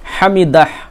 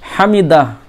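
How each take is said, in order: No difference in how they are said.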